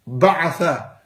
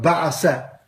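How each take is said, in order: First: The middle consonant is a th sound. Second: The middle consonant is an s sound. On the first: The speaker calls it right. "I'll say it properly for you" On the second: The speaker calls it wrong.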